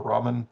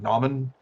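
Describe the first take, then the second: First: The word begins with an R sound. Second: The word begins with an N sound.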